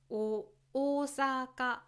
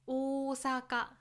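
First: The pitch rises after the first syllable. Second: The pitch stays level across the word. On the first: This is the Tokyo standard accent. "例えば東京弁、普通の標準語ですね…大阪のアクセントになります" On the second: This is the Kansai accent. "大阪弁がある関西では、大阪を大阪、フラットに言います"

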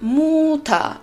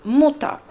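First: The first vowel is held long. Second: The first vowel is cut short. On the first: The speaker calls it wrong. "nosotros no decimos muta" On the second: The speaker calls it right. "Nosotros lo decimos cortito"

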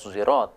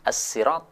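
First: It begins with an s blended toward z. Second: It begins with a plain, light s sound. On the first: "shad yang dicampur dengan zain. Yang istilahnya adalah ismam" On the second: "Boleh juga dibaca dengan huruf sin"

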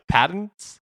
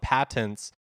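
First: The middle t is swallowed, not fully released. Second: The middle t is clearly and fully pronounced. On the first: The speaker calls it right. "how do normal people say that?" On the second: The speaker calls it wrong. "I like over enunciated the word patents"

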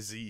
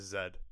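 First: The letter name is said the American way. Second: The letter name is said the British way. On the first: "he doesn't say Z" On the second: "he says Z. ... That's how you know he's British"

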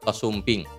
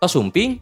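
First: The pitch falls at the end like a statement. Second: The pitch rises at the end like a question. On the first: It tells that someone has arrived. "Oh, ngabejaan" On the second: It asks whether someone has arrived. "Oh, nanya kan"

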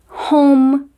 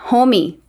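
First: The word ends on a closed-lip m sound. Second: A vowel sound follows the final m. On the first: The speaker calls it right. "o E é mudo" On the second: The speaker calls it wrong. "não podemos falar"

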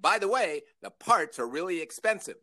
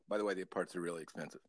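First: It is said in a full, steady voice. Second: It is rushed out very quickly. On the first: The warning is given openly and clearly. "full-throated delivery" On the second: The warning is slipped past unnoticed. "like really fast like that"

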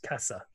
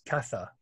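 First: The first consonant is an s sound. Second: The first consonant is a th sound. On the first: "And without it" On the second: "With Fifio"

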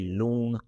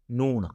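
First: The word begins with an L sound. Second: The word begins with an N sound. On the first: "we don't say loon. We don't pronounce with L" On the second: "We pronounce with N, right? Noon. We say noon"

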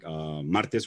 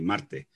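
First: The final s is fully pronounced. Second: The final s is aspirated or dropped.

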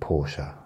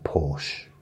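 First: The name is said the car-enthusiast way. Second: The name is said the everyday British way. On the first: "some people that are really into cars, they pronounce it Porsche" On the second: "In this country, it's called a Porsche"

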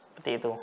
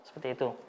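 No difference in how they are said.

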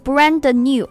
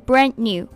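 First: The d in brand is fully released. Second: The d in brand is weakened, barely heard. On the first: The speaker calls it wrong. "不是brand new" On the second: The speaker calls it right. "这个的爆破音要弱读，而是brand new"

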